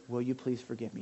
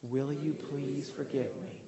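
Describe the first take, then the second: First: Sincere request. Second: Slow, gentle and earnest; slow sincere request. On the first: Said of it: "I want you to say". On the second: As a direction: lead the room through it slowly. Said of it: "Say it with me". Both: Shown as a demonstration.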